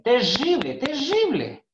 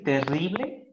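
First: "terrible, terrible" with a strong rolled rr, rising much higher; higher, louder local-style "terrible, terrible"; Lojano pronunciation. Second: Said in the usual way. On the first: Shown as a demonstration. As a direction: say "terrible" twice, rr trilled hard like in Loja. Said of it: "muchos lojanos dicen". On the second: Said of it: "En vez de decir".

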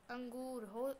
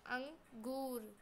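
First: Said in the usual way. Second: अंगूर said slowly, अं from the lips; अंगूर, slow and clear, lips rounded; slow word demo. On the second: Shown as a demonstration. (अंगूर धीरे धीरे बोलिए) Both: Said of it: "जबकि अंग जो बोलते हैं अंगूर".

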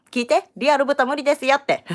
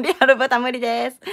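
First: Higher, louder insistence; emphatic announcement. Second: Raised, higher-pitched announcement; loud voice. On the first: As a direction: make viewers listen, loud and high. Emphatic plea to viewers, later repeated louder. (高く強めに念押し) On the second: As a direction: say it loud so everyone hears. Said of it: "もう一回大きい声で言うけど". (大きい声ではっきり宣言) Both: Real, not acted.

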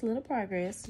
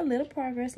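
First: Said in the usual way. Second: Bright, lifted little progress; cheerful little progress, pitched up; upbeat. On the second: Real, not acted. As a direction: say little progress with a proud lift.

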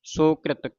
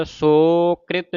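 First: ਸੋਕ੍ਰਿਤ run together with a short first vowel; quick and joined. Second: ਸੋਕ੍ਰਿਤ with a drawn-out 'sooo', then 'krit'; wrong long vowel. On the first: Teacher shows the reading, ਸੋਕ੍ਰਿਤ short and joined. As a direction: say ਸੋਕ੍ਰਿਤ quickly as one word. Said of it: "ਜਲਦੀ ਦੇ ਨਾਲ ਇਕੱਠਾ". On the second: Teacher warns what not to read, ਸੋਕ੍ਰਿਤ with long o. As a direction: stretch the first syllable of ਸੋਕ੍ਰਿਤ. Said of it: "ਸੋਕ੍ਰਿਤ ਨਹੀਂ ਪੜ੍ਹਨਾ". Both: Shown as a demonstration.

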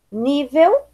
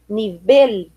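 First: Said in the usual way. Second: "nivel" as ni-BEL, stressed on the end; Spanish pronunciation. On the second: Shown as a demonstration. Teacher reading the list, "nivel" as Spanish ni-BEL. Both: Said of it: "diferença entre as palavras heterotônicas".

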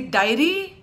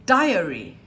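First: DIARY squashed to DI-ry; inarticulate. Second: DIARY in three syllables, DI-a-ry; loud DIARY with the A clearly heard; vowel sounded. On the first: Teacher showing a careless example, inarticulate. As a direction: drop the A in DIARY, rising at the end. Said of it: "then I'm being inarticulate". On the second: Teacher modelling the word, vowel sounded. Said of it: "So I've got to say diary". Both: Shown as a demonstration.

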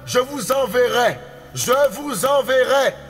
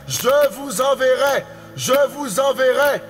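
Both takes have the same delivery.

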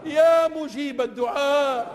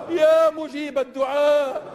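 Both takes have the same delivery.

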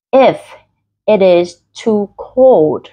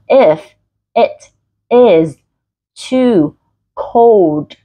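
First: Slow read with "it is" run together; linked "it is". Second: "If / it / is / too / cold" with clear breaks; each word separate. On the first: Teacher reads from habit for learners, "it is" linked. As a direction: link "it" into "is" without a break. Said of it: "it is là nối âm". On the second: Teacher corrects the linking for learners, each word distinct. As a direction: pause after every word, "it" unlinked from "is". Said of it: "các bạn đọc rõ từng từ". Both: Shown as a demonstration.

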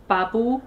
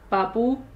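Both takes have the same delivery.

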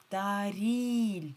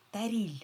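First: ТАРІЛЬ drawn out, loud long stressed I. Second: Said in the usual way. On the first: Shown as a demonstration. Teacher shows stress on second syllable, І stronger. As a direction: lean hard on the I in ТАРІЛЬ. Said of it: "вимовляємо І сильніше".

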